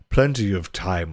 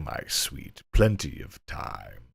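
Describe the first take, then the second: First: Lightly voiced sly nobleman, Plenty of time; sleazy master. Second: Hammy deep leer, Plenty of time; lower sleazy master. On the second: Acted. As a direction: drop low and slow on "Plenty of time" like a seducer. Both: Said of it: "inappropriate voice I can muster".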